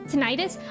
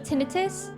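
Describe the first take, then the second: First: The middle vowel is a long eye sound. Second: The middle vowel is a short, soft i.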